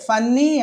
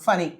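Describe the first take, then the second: First: The n sound is held long, doubled. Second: The n sound is short, single. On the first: The speaker calls it wrong. "ఫన్నీ అని అనేస్తాం మనం" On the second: The speaker calls it right. "ఒక్క ఎన్నే తీసుకుంటే సరిపోతుంది"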